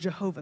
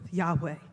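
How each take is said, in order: First: The name begins with a J sound. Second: The name begins with a Y sound. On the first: This is the older scholarly pronunciation. The speaker calls it wrong. "scholars for a long time thought that we pronounce this word Jehovah" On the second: This is closer to the original pronunciation. The speaker calls it right. "a closer pronunciation of this name is actually Yahweh"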